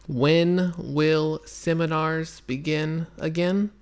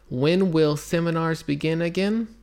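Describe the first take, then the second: First: It is read very slowly, word by word. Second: It is read slowly. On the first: "Şimdi aşırı yavaş, tane tane" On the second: "Şimdi bunu tekrarlıyorum, yavaş okuyorum"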